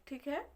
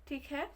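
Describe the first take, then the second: No difference in how they are said.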